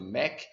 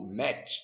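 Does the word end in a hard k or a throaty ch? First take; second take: hard k; throaty ch. First: The word ends in a hard k sound. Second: The word ends in a throaty ch sound. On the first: This is the Portuguese-adapted pronunciation. "acabamos aportuguesando e, e dizendo Mac" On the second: This is the original pronunciation. "A pronúncia correta"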